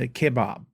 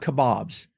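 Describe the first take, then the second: First: It is said the British way, like kebab. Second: It is said the American way, like kabob. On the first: "But here it's K E B A B, so kebab" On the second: "in America, we've got kebabs, K O B O B"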